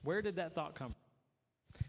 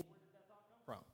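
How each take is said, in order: First: Slow, puzzled self-questioning; slow musing question. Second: Quick whisper to himself; hushed, fast private wondering; whispered question. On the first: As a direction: draw it out slowly, wondering. Repeating the question, slowing down. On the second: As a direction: whisper it fast under your breath. Repeating the question under his breath. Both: Shown as a demonstration.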